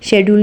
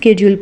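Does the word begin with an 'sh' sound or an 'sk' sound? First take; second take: sh; sk. First: The word begins with an 'sh' sound. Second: The word begins with an 'sk' sound. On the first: The speaker calls it wrong. "इसको English में शेड्यूल नहीं" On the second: The speaker calls it right. "स्केड्यूल पढ़ेंगे"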